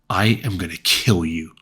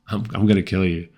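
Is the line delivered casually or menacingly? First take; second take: menacingly; casually. First: It is said in an intimidating, menacing way. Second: It is said casually, thrown away, nonchalant.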